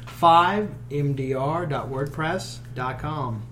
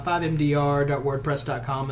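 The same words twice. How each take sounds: First: It is said slowly. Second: It is said fast.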